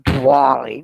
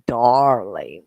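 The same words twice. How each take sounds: First: It is said in a posh upper-class English accent. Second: It is said in a plain everyday accent. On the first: This is not how we say it. The speaker calls it wrong. "we don't say darling" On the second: This is how we say it. The speaker calls it right. "we say darling"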